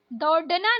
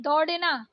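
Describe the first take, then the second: First: दौड़ना with hard ड stop; wrong hard D. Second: दौड़ना with flapped ड़; correct flapped ड़. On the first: Teacher showing learners the mistake, hard-D दौड़ना. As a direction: say दौड़ना with D, no flap. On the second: Teacher correcting learners, flapped दौड़ना. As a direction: flick the ड़ in दौड़ना. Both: Shown as a demonstration. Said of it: "नहीं".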